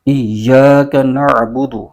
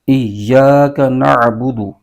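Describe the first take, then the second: No difference in how they are said.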